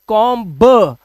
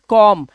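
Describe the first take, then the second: First: A 'b' sound is heard at the end. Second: The word ends on 'm' with no 'b'. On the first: The speaker calls it wrong. "आज के बाद हम कॉम्ब नहीं बोलेंगे" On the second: The speaker calls it right. "बी silent रहेगा"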